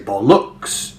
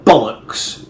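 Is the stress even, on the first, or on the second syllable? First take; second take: second; first. First: The stress is on the second syllable. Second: The stress is on the first syllable. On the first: The speaker calls it wrong. "put the stress on the second syllable" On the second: The speaker calls it right. "put the stress on the first syllable"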